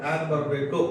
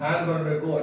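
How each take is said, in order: Both takes have the same delivery.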